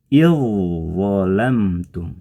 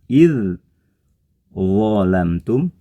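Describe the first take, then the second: First: The dh sound merges into the next consonant. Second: The dh sound is pronounced separately. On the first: This is how it is actually recited. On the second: This is how it is written.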